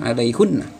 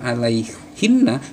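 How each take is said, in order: First: The vowel after alaih is u. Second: The vowel after alaih is i. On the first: The speaker calls it wrong. "dibacanya alaihunna" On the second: The speaker calls it right. "berkaitan dengan alaihinna"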